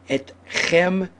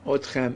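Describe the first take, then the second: First: The word begins with an 'e' vowel. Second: The word begins with an 'o' vowel. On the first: The speaker calls it right. "correct pronunciation" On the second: The speaker calls it wrong. "that mistake"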